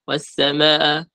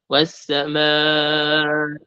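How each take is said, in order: First: The long vowel is cut short. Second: The long vowel is stretched out. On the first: The speaker calls it wrong. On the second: The speaker calls it right.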